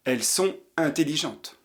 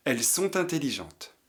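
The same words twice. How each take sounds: The two takes are said the same way.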